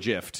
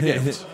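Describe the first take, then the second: First: The word begins with a soft G sound. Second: The word begins with a hard G sound. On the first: "some people call it a gift" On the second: "I call it a gift with a hard G"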